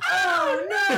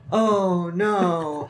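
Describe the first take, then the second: First: It is said at a high pitch. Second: It is said at a medium pitch.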